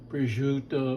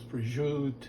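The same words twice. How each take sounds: First: The word is said in full with its final vowel. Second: The word is clipped, dropping its final vowel.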